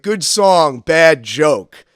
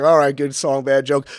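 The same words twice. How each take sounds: First: Loud, blunt verdict from the gambling table; heckler's verdict. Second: A louder mocking echo of the heckler's words. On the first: Retold or imitated. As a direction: bark it flatly as the heckler. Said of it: "And he's like". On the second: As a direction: throw his line back at him. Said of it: "And I was like".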